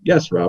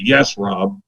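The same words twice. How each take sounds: First: It sounds friendly and pleased. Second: It sounds reluctant and unhappy.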